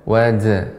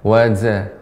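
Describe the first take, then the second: The two takes are said the same way.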